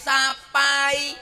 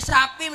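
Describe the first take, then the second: First: The word ends in an 'ai' diphthong. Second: The word ends in a plain 'i' vowel. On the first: This is how it is said there, in Banyuwangi. "mriko nggih sapai" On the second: This is how it is said here. "mriki sapi"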